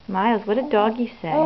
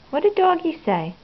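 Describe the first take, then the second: First: Said in the usual way. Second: A higher, brighter sing-song question. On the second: Real, not acted. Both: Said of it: "asked again higher".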